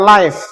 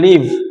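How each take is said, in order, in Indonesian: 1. Kata itu diakhiri dengan bunyi F. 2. Kata itu diakhiri dengan bunyi V. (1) "bukan live. Kalau live itu pakainya F" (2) "kalau ini pakainya V"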